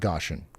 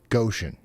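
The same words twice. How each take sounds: First: The first syllable sounds like 'gosh'. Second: The first syllable sounds like 'go'. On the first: The speaker calls it wrong. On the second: The speaker calls it right. "it actually rhymes with ocean"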